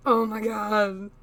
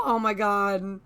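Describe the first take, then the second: First: Slow, loud smitten gush; drawn out and adoring; overwhelmed by cuteness. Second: Loud breathy gush; overwhelmed by cuteness. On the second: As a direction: gasp it out, smitten. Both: Real, not acted. Gushing over cute character.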